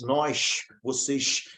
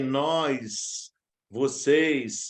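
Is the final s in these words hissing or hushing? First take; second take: hushing; hissing. First: The final s sounds are hushed like sh. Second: The final s sounds are sharp and hissing. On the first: "Alguns que falam X" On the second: "ficou com excesso de S"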